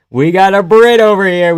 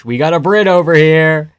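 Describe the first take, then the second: First: Called out louder and higher, stress on Brit; louder repeat. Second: Said in the usual way. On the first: Real, not acted. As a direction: announce it again, louder, leaning on Brit.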